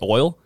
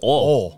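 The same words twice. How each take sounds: First: The word is said in a neutral accent. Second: The word is said in a Southern accent. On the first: "Have you ever heard a southern person say oil?" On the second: "They say oil"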